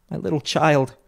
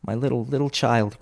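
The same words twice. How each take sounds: First: Higher, anguished father's cry; breaking down. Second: Understated grief beginning to show; grieving cry. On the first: Bob breaks down over his child, crying out. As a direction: let grief lift the voice sharply. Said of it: "He broke down all at once". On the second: Bob remembers his little child, mildly grieving. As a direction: let sorrow creep in gently. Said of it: "cried Bob". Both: A narrator's reading.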